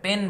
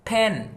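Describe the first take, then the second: First: The p is said without a puff of air. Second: The p is said with a puff of air. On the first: The speaker calls it wrong. "পেন বলা যাবে না" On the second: The speaker calls it right. "একটু চাপ দিয়ে বলতে হবে"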